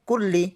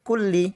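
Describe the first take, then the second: Both takes have the same delivery.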